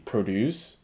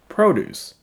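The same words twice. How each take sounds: First: The stress is on the second syllable. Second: The stress is on the first syllable. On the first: It is the verb, meaning to create something. The speaker calls it wrong. "If it is a noun, you do not say produce" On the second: It is the noun. The speaker calls it right. "you say produce"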